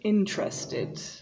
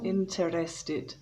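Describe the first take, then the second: First: The word is said with three syllables. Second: The word is said with four syllables. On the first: The speaker calls it right. "there are only three syllables" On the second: The speaker calls it wrong. "so it's not interested"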